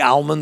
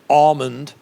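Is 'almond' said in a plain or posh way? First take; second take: plain; posh. First: The word is said in a plain, everyday way. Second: The word is said in a posh way.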